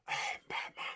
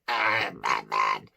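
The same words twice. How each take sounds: First: It is very breathy, almost a whisper. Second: It is over-squeezed and strained, like a Dalek.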